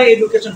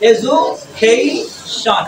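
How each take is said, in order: First: Said in the usual way. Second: এডুকেশন broken slowly as e-zu-KHEI-shon; slow teacher's model of এডুকেশন, "e-zu-khei-shon"; correct pronunciation demo. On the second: Shown as a demonstration. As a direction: draw out এডুকেশন syllable by syllable, stressing KHEI. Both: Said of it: "আমরা এডুকেশন বলি".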